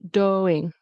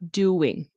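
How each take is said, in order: First: The syllables join with no w glide. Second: A w glide links the two syllables. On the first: The speaker calls it wrong. "So it's not doing" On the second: The speaker calls it right. "There's a W in between"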